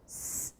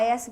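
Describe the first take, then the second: First: Only the hissing consonant sound is made. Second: The full name of the letter is said. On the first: "isso é som" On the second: "você está falando do quê? De letra"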